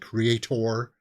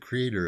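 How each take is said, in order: First: The word is said with punch and emphasis. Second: The word is said lightly and casually. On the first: "If I want to really put a punch on it, I say creator" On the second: "If I just want to say uh, the creator of this casually"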